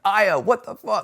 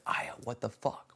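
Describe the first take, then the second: First: Louder, higher and slow, really mad at Aya; angry outburst. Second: Soft, stunned question at Aya; stunned disbelief. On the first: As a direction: demand it from her, furious. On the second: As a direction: let it fall out quietly in shock. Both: Retold or imitated. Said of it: "the more I was getting mad at her".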